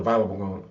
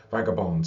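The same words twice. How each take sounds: First: Vagabond stumbled as "valen", the g sound dropped; misread vagabond. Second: Vagabond said cleanly as VAG-a-bond with a clear g; corrected vagabond. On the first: Narrator reading aloud, fumbling vagabond as "valen". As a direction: trip over vagabond, slurring it to "valen". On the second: Narrator reading aloud, fixing vagabond with careful VAG-a-bond. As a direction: carefully restate vagabond, each syllable clear. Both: Real, not acted. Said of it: "vagabond (self-correction)".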